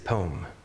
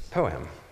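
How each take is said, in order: First: The word is said as one syllable. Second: The word is said as two syllables. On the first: The speaker calls it wrong. "I would say poem" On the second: The speaker calls it right. "it's two syllables"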